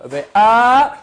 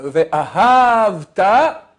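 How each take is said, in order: First: Ve'ahavta loud and high, stress on VE and HAV; Ve'ahavta read the right way, VE-a-HAV-ta; correct stress. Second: Ve'ahavta very slow, stress on the second syllable, ve-A-hav-ta; Ve'ahavta the mistaken way, second syllable pressed; wrong stress. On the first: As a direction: say Ve'ahavta with stress on the first and third syllables. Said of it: "L'accent doit être dans la première syllabe et troisième syllabe". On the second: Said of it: "Si tu dis l'accent dans la deuxième syllabe". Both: Shown as a demonstration.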